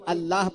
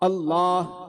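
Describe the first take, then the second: First: The l sound is light and thin. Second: The l sound is heavy and full. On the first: The speaker calls it wrong. "ये हो जाती है लहने खफी" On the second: The speaker calls it right. "इस तरह पढ़ते हैं"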